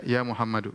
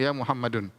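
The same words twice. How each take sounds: First: "Muhammadu" ending on a bare -u; correct ending. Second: "Muhammadun" said with final -un; wrong ending. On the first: A teacher repeats the right form, "Muhammadu" ending in -u. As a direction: close "Muhammadu" with no n. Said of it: "tapi dia". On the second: A teacher repeats the wrong form, "Muhammadun" with -un. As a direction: finish "Muhammadun" on -un. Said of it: "Kita tidak bilang". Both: Shown as a demonstration.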